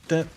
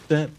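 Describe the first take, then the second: No difference in how they are said.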